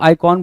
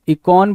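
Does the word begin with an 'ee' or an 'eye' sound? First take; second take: eye; ee. First: The first vowel sounds like 'eye'. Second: The first vowel sounds like 'ee'. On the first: "आइकॉन बोल सकते हो" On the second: "इकॉन बोल सकते हो"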